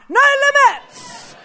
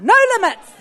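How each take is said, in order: First: It is shouted out at full volume. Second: It is said louder than normal.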